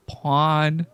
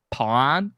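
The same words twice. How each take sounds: First: "Porn" with a short open o, falling; trying the word. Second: "Porn" with a short open o, rising; testing how "Porn" should sound; trying the word. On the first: Streamer settling on "Porn" for chat, said flatly. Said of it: "how do I say it". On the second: Streamer to chat, testing "Porn" with a rising tune. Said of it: "a funny accent". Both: Shown as a demonstration.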